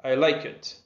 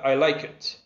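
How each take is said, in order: Both takes have the same delivery.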